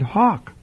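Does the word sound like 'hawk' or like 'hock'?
hock. It is said with a vowel like in 'hock'. Locals hear it as a ham hock. The speaker calls it wrong. "but you pronounced it hawk"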